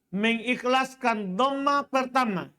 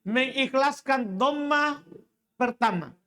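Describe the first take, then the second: The two takes are said the same way.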